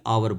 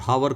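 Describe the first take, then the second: First: The word begins with a vowel sound. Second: The word begins with a sounded h. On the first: The speaker calls it right. "आवर बोलेंगे, एच silent है" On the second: The speaker calls it wrong. "हावर को नहीं बोलेंगे"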